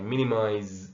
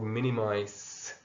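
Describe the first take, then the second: First: The last syllable starts with a buzzing Z sound. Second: The last syllable starts with a hissing S sound. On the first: "with a Z sound, like the American way" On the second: "with the S sound like the British way"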